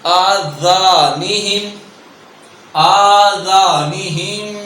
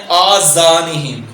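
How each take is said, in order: First: آذانہم with a soft thin zaal, no hiss; slow آذانہم with thin zaal. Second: آذانہم with a buzzing Urdu ze; آذانہم with the common ze mistake; wrong ze sound. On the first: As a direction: say آذانہم with light zaal and no whistle. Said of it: "ذال ہے بغیر سیٹی کے اور باریک". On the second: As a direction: say آذانہم with ze instead of zaal. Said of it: "جو کہ یہاں زا ادا ہوتا ہے". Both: Shown as a demonstration.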